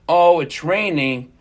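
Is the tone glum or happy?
glum. It is said in a glum, complaining tone.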